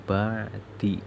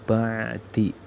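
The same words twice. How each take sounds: Both takes have the same delivery.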